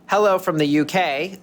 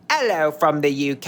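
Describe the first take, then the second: First: It is said in a plain American accent. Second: It is said in a put-on British accent.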